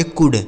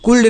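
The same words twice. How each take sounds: First: कुड said with no l sound; silent l in could. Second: कुल्ड with the l sounded, marked as wrong; wrong pronunciation with l. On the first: Hindi teacher showing कुड without the l. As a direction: say कुड, not कुल्ड. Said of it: "कुल्ड नहीं, कुड पढ़ा जाएगा". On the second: Teacher shows the wrong way, कुल्ड with the l. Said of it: "कुल्ड नहीं". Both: Shown as a demonstration.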